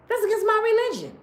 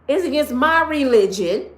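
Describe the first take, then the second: First: "my" in "That's against my religion" higher and faster; stress on my. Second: "my" in "It's against my religion" pushed a touch louder; stress on my. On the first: Repeating to viewers, higher quicker "my" in "That's against my religion". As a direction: snap "my" up quick. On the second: Talking to viewers, weighing "my" in "It's against my religion". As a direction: lean on "my". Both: Shown as a demonstration.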